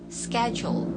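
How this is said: It begins with an 'sk' sound, American style. "Kalau American schedule"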